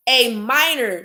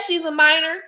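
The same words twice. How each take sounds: First: Minor said level and falling, firmly closing; flat emphatic repeat. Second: Minor lifted high with a rising, disbelieving tune; incredulous rise on minor. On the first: Vlogger hammering home the point to viewers, flat and firm. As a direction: drop "minor" down like a verdict. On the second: Vlogger stressing the victim's age to viewers, rising disbelief. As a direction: let "minor" climb up in outrage. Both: Real, not acted.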